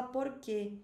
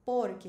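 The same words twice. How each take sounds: First: "por quê" stressed on QUÊ; wrong final stress. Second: "Porque" with POR stressed, QUE light; stress on first syllable. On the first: Teacher shows what not to say, stress on last syllable. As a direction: put the weight at the end of "por quê". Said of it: "estaria errado". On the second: Teacher corrects the stress, first syllable strong. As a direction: hit POR and let the ending drop. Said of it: "a força tá aqui". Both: Shown as a demonstration.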